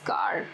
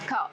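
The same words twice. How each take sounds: First: The final r sound is clearly pronounced. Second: The final r sound is left silent. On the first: The speaker calls it wrong. "they speak this word as car, as we speak it in Hindi or in the Punjabi language" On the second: The speaker calls it right. "I'm not using the r sound"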